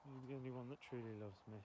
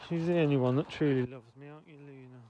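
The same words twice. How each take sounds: First: Said in the usual way. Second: Loud, doting praise of the dog; gushing over a beloved pet. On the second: Real, not acted. Owner doting loudly on her dog Luna.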